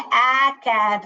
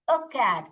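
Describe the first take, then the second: First: The article is a full 'ay' sound. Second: The article is a short weak 'uh' sound. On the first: The speaker calls it wrong. "ए का आवाज नहीं निकालते हैं" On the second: The speaker calls it right. "अ अ dog, अ cat ऐसे बोलते हैं"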